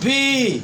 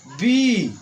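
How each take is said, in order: First: It is said very fast. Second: It is said a little slowly.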